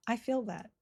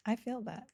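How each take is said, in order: Both takes have the same delivery.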